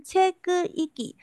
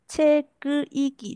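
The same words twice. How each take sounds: First: 切割一击 with a breathy, higher first syllable 切; aspirated first syllable. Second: 切割一击 read evenly with an unaspirated 切; flat unaspirated. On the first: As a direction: start 切 on an aspirated puff, pitched up, then 割一击 slowly. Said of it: "第一个音呢音调有比较高一点". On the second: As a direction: glide through 切割一击 level, with no puff of air on 切. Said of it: "只是平稳的念过去". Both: Shown as a demonstration.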